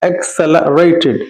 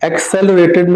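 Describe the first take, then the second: First: A clear a vowel follows the l. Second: No clear a vowel follows the l. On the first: The speaker calls it right. "ला के बाद थोड़ा सा आपको अलिफ मद आ" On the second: The speaker calls it wrong. "accelerated नहीं"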